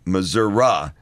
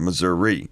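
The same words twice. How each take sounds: First: The word ends with an 'ah' sound. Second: The word ends with an 'ee' sound.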